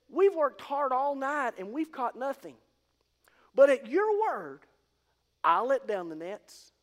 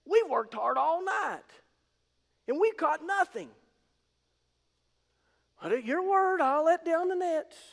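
First: The stress falls on your and I'll. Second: The stress falls on the word we. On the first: "he focused on the your and the I'll" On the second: "instead of focusing on the weave"

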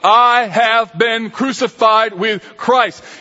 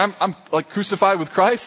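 First: It sounds direct and forceful. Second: It sounds casual and hesitant, with fillers.

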